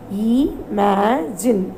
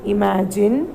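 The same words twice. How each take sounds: First: Drawn out imagine very slowly; slow demo. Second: Said in the usual way. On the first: Shown as a demonstration. Teacher to grade five, models the word very slowly. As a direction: stretch Imagine out slowly for the class.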